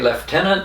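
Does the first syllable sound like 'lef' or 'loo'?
lef. The first syllable sounds like lef. "I don't say lieutenant"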